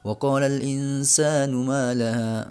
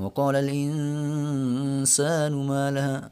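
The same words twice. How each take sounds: First: It is recited fast with a short nasal. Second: It is recited fast but the nasal is held long. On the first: "bacanya lancar" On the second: "tempo bacanya Al-Qur'annya cepat malah uh, dengunya lama banget"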